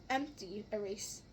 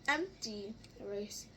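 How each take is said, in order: The two takes are said the same way.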